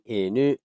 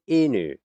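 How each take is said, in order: First: The pitch goes up on the word. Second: The pitch goes down on the word. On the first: The speaker calls it right. "instead of going inu, like I'm supposed to" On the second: The speaker calls it wrong. "I went inu, which brings it down"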